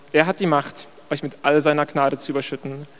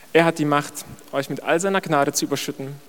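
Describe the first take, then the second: The two takes are said the same way.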